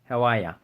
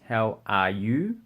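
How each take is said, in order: First: The last word is shortened to a quick 'ya'. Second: The last word is said as a full 'you'. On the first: "we shorten it to ya" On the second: "we do say you"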